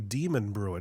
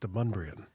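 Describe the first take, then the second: First: It sounds like two words, demon and brewing. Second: It sounds like one blended word with shifted stress. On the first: The speaker calls it wrong. "It looks like it should say Demon Brewing" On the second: The speaker calls it right. "the emphasis is on the wrong syllable, and it's Demunbrian"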